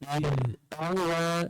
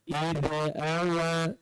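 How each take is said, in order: First: The consonant stops, then the next vowel starts fresh. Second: The consonant runs on into the next vowel. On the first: The speaker calls it right. "Matikan zal... Kemudian bunyikan hamzah" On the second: The speaker calls it wrong. "lantunkan za kepada huruf lain... Salah"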